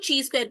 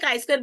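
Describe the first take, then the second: First: The first word sounds like 'chee'. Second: The first word sounds like 'kai'. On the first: "कुछ लोग इसको ची square बोलते हैं" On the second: "इसको पहले काई स्क्वायर बोलते हैं"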